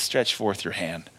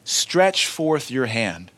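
First: Quiet command. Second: Slow, drawn-out command, each word weighed. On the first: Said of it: "Jesus just looks and says". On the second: Preacher repeating Jesus' words to his congregation, slow and solemn. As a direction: lay out the command slowly and solemnly. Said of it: "Notice the commandment". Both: Acted.

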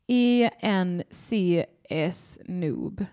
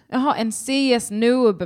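First: Reading the letters E, N, C, S one by one, very slowly; slow spelling out. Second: "en C S noob" read as words, higher and louder with a realising "jaha"; the penny drops, say it as the name; sudden realisation. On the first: Host puzzling over a chat name, reading letters very slowly. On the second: Host finally reading the chat name right, louder with realisation. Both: Shown as a demonstration. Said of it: "det bara är, eh, så här små bokstäver".

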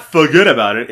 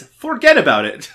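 First: "forget about it" slurred as "fuhgeddaboudit"; casual New York "fuhgeddaboudit" for "forget about it"; wrong name pronunciation. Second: "forget about it" with a full "for" and hard "get"; "forget about it" articulated with the r and t sounded; corrected name pronunciation. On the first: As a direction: run "forget about it" together, dropping the r and softening the t's. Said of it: "he can't really do that accent". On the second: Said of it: "it's not forget about it. It's". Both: Shown as a demonstration.

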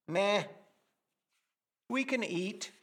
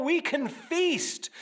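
First: Unimpressed shrug of a reply, softer at the end; bland meh. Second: Higher and slow, savouring "feast"; excited feast. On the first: Retold or imitated. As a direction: toss it off as if it barely matters. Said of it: "is a bland". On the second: Shown as a demonstration. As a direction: relish the abundance in the words. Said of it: "It's not the abundant buffet table".

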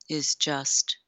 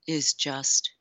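No difference in how they are said.

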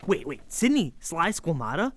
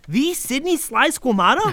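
First: Half-whispered double take; can't believe the name you just heard; stunned disbelief. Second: Rising, louder, hitting Sidney; fanboy gasp of recognition; starstruck awe. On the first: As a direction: kid meeting his comedy hero, stunned. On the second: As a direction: kid realizing his hero is real, thrilled. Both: Acted. Meeting a comedy legend.

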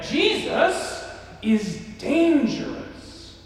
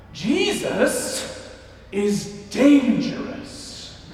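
First: Slow, higher raspy proclamation; smoker's rasp. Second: Slow, raspy bellowed line; smoker's rasp. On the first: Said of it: "So she would say it again". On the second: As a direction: rasp it out slowly like an old preacher. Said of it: "in her smoker's rasp would bellow out". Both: Retold or imitated.

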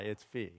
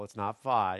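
First: Phi said as fee, much softer; fee pronunciation. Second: Phi said as fie, falling; fie pronunciation. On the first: Pastor correcting the Greek letter phi, soft fee. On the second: Pastor correcting the Greek letter phi, fie. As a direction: stress the long fie sound in phi. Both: Shown as a demonstration. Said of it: "It's not phi, it's phi".

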